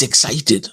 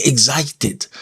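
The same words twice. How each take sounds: First: "excited" said ik-SAI-ted, no extra weight on the X; the standard "excited", softer on the X; corrected excited. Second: "excited" with the X stressed, eg-ZAI-ted; Kenyan excited. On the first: Critics correcting how she says "excited". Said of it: "Why are you saying excited? It's excited". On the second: Critics quoting the Kenyan way of saying "excited". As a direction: hit the X in "excited" hard, Kenyan style. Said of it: "They say excited with emphasis on the X". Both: Retold or imitated.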